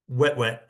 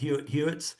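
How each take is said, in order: First: Each part is one syllable, like wet. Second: Each part is two syllables, like Hewitt. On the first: The speaker calls it right. "It's actually kind of pronounced chestnut-throated wet wet" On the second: The speaker calls it wrong. "I was calling them Hewitt Hewitts. Kind of got made fun of for that"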